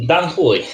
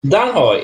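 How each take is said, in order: First: "Dan Hoy" with the second word said like HOO-ee; corrected pronunciation. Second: Put-on "Dan Hoy" with the second word rhyming with boy; tentative pronunciation. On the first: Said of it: "there you go". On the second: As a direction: try "Dan Hoy" with an oy vowel, higher at the start. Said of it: "is that the way to say it". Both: Shown as a demonstration.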